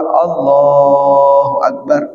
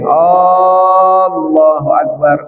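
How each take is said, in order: First: The vowel after the second l is lengthened. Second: The first vowel of Allah is lengthened. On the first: The speaker calls it right. "yang boleh dipanjangin itu lam yang kedua" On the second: The speaker calls it wrong. "Kalau dipanjangkan jadinya begini"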